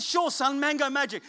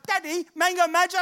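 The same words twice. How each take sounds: First: Dad answering son. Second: Put-on high, loud little-boy question, rising at the end; imitated young son. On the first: Retold or imitated. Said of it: "I said". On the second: Son asks dad after the eighth shop, high pleading child voice. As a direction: play an eager child asking for a treat. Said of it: "my son goes".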